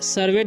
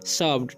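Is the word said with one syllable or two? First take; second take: two; one. First: The ending is said as a separate syllable. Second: The ending is joined into a single syllable. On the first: The speaker calls it wrong. "सर्वेड नहीं पढ़ना" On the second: The speaker calls it right. "क्या पढ़ना है"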